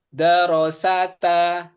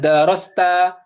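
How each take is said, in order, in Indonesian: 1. Vokal a pendek memisahkan s dan t. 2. s dan t disambung tanpa vokal. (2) "Bukan darosta"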